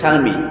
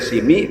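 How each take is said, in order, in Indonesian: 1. Vokal pertama adalah bunyi 'a'. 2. Vokal pertama adalah bunyi 'i'. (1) "boleh dibaca salmi" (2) "boleh dibaca silmi"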